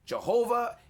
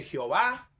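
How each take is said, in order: First: Jehová said the English way, "juh-HO-vuh"; English J and stressed middle syllable in Jehová; English pronunciation. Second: Jehová said the Spanish way, "heh-o-VA"; Spanish pronunciation. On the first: Preacher showing the name in English, Jehová as "juh-HO-vuh". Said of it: "en inglés Jehová". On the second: Preacher showing the name in Spanish, Jehová as "heh-o-VA". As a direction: stress the last syllable of Jehová, Spanish J. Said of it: "En español se dice". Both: Shown as a demonstration.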